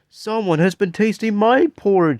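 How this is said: It is said in a wee tiny voice.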